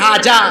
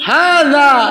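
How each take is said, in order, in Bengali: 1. মাঝের ব্যঞ্জনটি j বা z ধ্বনি। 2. মাঝের ব্যঞ্জনটি জিহ্বার ডগা দাঁতের সাথে লাগিয়ে উচ্চারিত হয়। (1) "ব্যাকল" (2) "জিহ্বার আগাকে দাঁতের আগায় লাগায় বলতে হয়"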